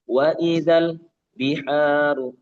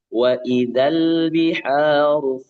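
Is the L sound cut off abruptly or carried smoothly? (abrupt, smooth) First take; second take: abrupt; smooth. First: The L sound is cut off abruptly. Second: The L sound flows smoothly into the next. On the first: The speaker calls it wrong. "jangan diputus. Jangan wa idzal biharu" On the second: The speaker calls it right. "sambung aja"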